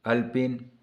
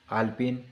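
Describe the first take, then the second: First: अल्पिन with a short first a, al-pin; wrong pronunciation. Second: आल्पिन with a long first aa, aal-pin; correct pronunciation. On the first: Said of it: "अशुद्ध है". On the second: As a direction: say आल्पिन properly, opening on a long aa. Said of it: "शुद्ध है". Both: Shown as a demonstration.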